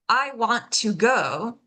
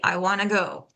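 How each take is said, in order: First: Each word is said fully and separately. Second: Want to is reduced and blended into wanna.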